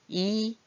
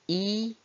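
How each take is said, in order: Both takes have the same delivery.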